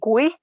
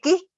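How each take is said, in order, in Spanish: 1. La u se pronuncia después de la g. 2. La u es muda después de la g. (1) "si sabemos que tiene la diéresis" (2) "sin diéresis, esa es la pronunciación"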